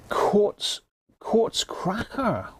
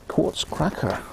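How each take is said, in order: First: High, slow, drawn-out "Quartz, quartz cracker"; drawn-out beer name. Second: Said in the usual way. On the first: Acted. Savouring the beer's name.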